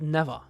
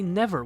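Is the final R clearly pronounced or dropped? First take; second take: dropped; pronounced. First: It has a German accent with a weak final R. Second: It ends with a clearly pronounced R sound. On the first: The speaker calls it wrong. "in like this German way" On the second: The speaker calls it right. "with like this R at the end"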